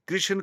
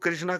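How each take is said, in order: First: The name ends without a final vowel. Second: The name ends with a long a vowel. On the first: It names the god Krishna. The speaker calls it right. "कृष्ण को" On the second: It names Draupadi instead. The speaker calls it wrong. "कृष्णा कहने से तो अर्थ का ही अनर्थ हो जाता है"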